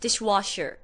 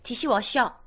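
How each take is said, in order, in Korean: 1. 미국 영어 발음으로 말해요. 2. 한국식 발음으로 말해요. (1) "dishwasher 이러면 되게 짜증나고" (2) "디시워셔 이렇게 얘기해야 행복하죠"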